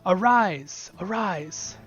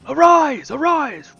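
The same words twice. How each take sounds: First: It is read in a plain, flat voice. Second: It is proclaimed in a loud, rousing voice.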